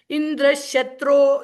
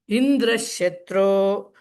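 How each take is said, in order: First: The high pitch falls on the last syllable. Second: The high pitch falls on the first part. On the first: Indra is the one who gets killed. "if the last syllable is is Udatta" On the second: Indra is the one who kills. "says Indra at a higher pitch"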